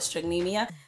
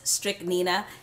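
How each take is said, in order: First: The name ends with a 'meeya' sound. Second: The name ends with a 'neena' sound. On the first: The speaker calls it wrong. "I call it strychnemia, but it's not strychnemia" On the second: The speaker calls it right. "It is strychnina"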